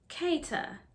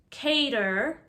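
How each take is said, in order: First: The final R is dropped, British style. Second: The final R is pronounced with rounded lips. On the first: "how British people say these sounds" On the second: "Notice the rounded R's"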